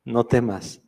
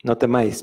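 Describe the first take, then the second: First: No temas with temas said as two syllables, tem-as; preacher reading the verse, slipping into temas; misread temas. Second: No temáis with temáis said tem-ÁIS, stress on the final diphthong; preacher correcting his misreading to temáis; corrected temáis. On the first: Lee "no temas" con la forma temas, en dos sílabas. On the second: Corrige a "no temáis" con la forma temáis, acento en áis. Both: Real, not acted. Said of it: "perdón".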